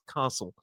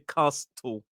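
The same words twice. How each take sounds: First: The T sound in the middle is silent. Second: The T sound in the middle is pronounced. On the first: The speaker calls it right. "It's castle" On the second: The speaker calls it wrong. "We don't say castle. We don't pronounce the T"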